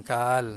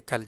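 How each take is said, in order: First: "kal" stretched as "kaal"; wrongly lengthened vowel. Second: "kal" with a brief A; short vowel. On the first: Teacher warning students off it, long-vowel "kal". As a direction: hold the A in "kal" far too long. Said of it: "pendek je kal". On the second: Teacher showing it has no long vowel, short "kal". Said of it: "pendek je". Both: Shown as a demonstration.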